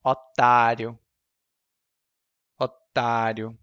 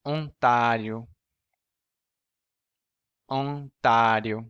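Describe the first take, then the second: First: "Otário" with a plain oral first o; "Otário", first o with no nasal air. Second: Slow "Ontario" with a nasal first vowel. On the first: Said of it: "And now sucker". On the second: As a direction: stretch out "Ontario", first o through the nose. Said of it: "First, nasal". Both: Shown as a demonstration.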